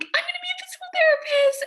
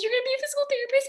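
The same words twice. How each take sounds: First: Excited news. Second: Mom's astonished question. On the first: Calling mom with big news. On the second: Mom repeats the news. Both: Retold or imitated.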